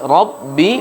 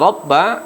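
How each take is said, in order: First: The word ends with an 'i' vowel. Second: The word ends with an 'a' vowel. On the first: The speaker calls it right. "seharusnya baris bawah" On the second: The speaker calls it wrong. "diganti menjadi baris atas"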